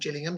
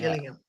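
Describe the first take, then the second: First: The first G is a soft J sound. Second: The first G is a hard G sound. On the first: This is the name as it was wrongly assumed. The speaker calls it wrong. "I always thought it was called" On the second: This is the name as it is really said. The speaker calls it right. "Gillingham's got hard G"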